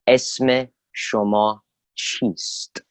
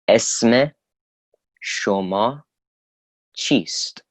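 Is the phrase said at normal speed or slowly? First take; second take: normal speed; slowly. First: It is said at normal speed. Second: It is said slowly.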